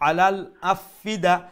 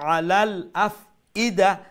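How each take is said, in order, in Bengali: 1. এটা দ্রুত পড়া হয়, হামজা বাদ দেওয়া হয়। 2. এটা স্পষ্ট, জোরালো হামজা দিয়ে পড়া হয়। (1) "আমরা যদি একটু তাড়াতাড়ি পড়লে আমরা কই" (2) "ই হামজা কিন্তু পাওয়ারফুল"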